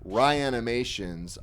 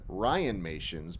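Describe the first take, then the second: First: The name is said with five syllables. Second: The name is said with four syllables. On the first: This is how someone else says it. The speaker calls it wrong. "You call it Ryanimations" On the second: This is how the speaker says it. The speaker calls it right. "that is the proper pronunciation"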